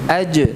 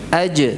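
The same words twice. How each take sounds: The two takes are said the same way.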